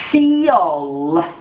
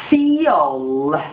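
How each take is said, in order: The two takes are said the same way.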